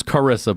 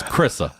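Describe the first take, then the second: First: Said in the usual way. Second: "Chrissa" squeezed into two syllables; Baltimore pronunciation. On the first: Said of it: "Her name's Carissa". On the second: Shown as a demonstration. Showing how he says her name, "Chrissa" in two Baltimore syllables. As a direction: say "Chrissa", dropping the first vowel of Carissa. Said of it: "In Baltimore accents".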